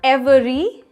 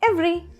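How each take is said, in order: First: All the syllables are said in full. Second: The syllables are squeezed into fewer.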